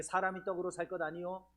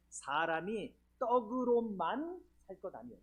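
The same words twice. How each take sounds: First: Said in the usual way. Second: 떡으로만 slowed and drawn out, landing on 만; stress on 만. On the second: Shown as a demonstration. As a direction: linger on the 만 of 떡으로만. (떡으로만의 '만'을 길게 늘여 강조) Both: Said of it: "요 만자가 중요해요".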